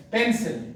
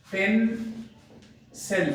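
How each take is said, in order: First: Said in the usual way. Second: "pencil" slowly split in two, pause between parts; broken into syllables. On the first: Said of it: "तो मैं इसको अनब्रोक करूंगा". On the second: Shown as a demonstration. Teacher dividing a word into two parts, "pencil" slowly syllable by syllable. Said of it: "broke करूंगा".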